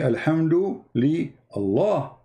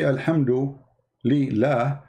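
First: The final word is said in full, Allah. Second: The final word is shortened to la. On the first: The speaker calls it right. "you say" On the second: The speaker calls it wrong. "you don't say"

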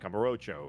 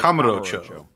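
First: The stress is on the third syllable. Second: The stress is on the first syllable. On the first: The speaker's usual casual way of saying it. "I normally would put it on like the row" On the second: The way the producers wanted it said. "They wanted that ka to be the emphasis"

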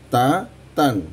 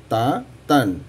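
Both takes have the same delivery.

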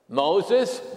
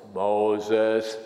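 First: The name is said in a normal voice. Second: The name is said in a deep voice. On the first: The speaker calls it wrong. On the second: The speaker calls it right.

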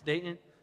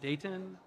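First: The middle T sound is dropped. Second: The middle T sound is clearly pronounced. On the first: This is how locals say the name. The speaker calls it right. "they don't pronounce the T" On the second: This is how outsiders say the name. The speaker calls it wrong. "It's not Dayton"

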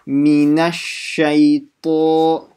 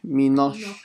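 First: A full, clear 'a' follows 'min'. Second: The 'a' after 'min' is dropped or muffled. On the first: The speaker calls it right. "So the a sound" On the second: The speaker calls it wrong. "sounds like some of you guys are saying minosh"

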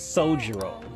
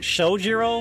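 First: The name begins with a plain 's' sound. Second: The name begins with an 'sh' sound. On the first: The speaker calls it right. "but it's Shojiro" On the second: The speaker calls it wrong. "I throw that H in there"

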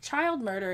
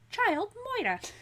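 First: Murder is said in a plain, ordinary accent. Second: Murder is said in a comic put-on accent.

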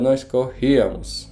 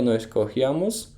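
First: The stress falls on the rí syllable. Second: The stress falls away from the rí syllable. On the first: The speaker calls it right. "musimy położyć akcent tam, gdzie jest właśnie trasu, czyli kreska nad i" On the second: The speaker calls it wrong. "Nie nós corríamos"

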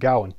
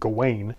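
First: The name is said closer to modern Welsh. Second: The name is said the common American way. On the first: "closer to the Welsh, at least the modern Welsh pronunciation" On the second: "frequently in America pronounced Gawain"

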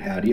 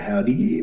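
First: Said at normal pitch and length. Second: The ending is stretched out and goes high-pitched. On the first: "instead of howdy" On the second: "with the extended Y and it goes high pitched"

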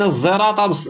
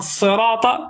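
First: The word begins with a z sound. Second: The word begins with an emphatic s sound. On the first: "بالزين" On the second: "بالصاد"

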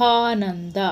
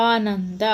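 The two takes are said the same way.

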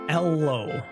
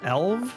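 First: The name ends with an O sound. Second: The name ends with a V sound. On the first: "Why would the W be pronounced like a low sound? Or an O sound?" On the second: "The W has a V sound, maybe?"

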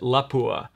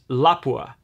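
First: The stress falls toward the end of the word. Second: The stress does not fall on the word's end. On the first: The speaker calls it wrong. "we tend to pronounce it Lapua. Apparently that's incorrect" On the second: The speaker calls it right. "there's no accent on the end"

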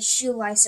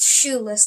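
First: The second syllable rhymes with 'dice'. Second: The second syllable rhymes with 'dress'. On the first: The speaker calls it wrong. "I know I pronounced it Shoelice at one moment" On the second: The speaker calls it right. "It's Shoeless kind. Get it right"

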